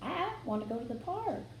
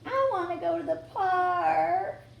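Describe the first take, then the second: First: It is said in a plain, normal voice. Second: It is said in a whiny, complaining voice. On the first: The speaker calls it right. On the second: The speaker calls it wrong.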